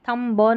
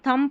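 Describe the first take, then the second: First: A b sound follows the final m. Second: The word ends on the m sound. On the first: The speaker calls it wrong. "थम ब नहीं पढ़ते" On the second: The speaker calls it right. "अब इसको थम पढ़ेंगे"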